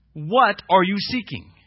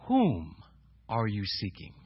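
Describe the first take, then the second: First: Slow question with What set out strongly; stress on What. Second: Whom drawn out and set apart, rest softer; stress on Whom. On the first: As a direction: lean on the word What. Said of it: "it wasn't who ... it was what". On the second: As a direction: hold Whom, pause, then finish lower. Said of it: "So it wasn't who". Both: Shown as a demonstration.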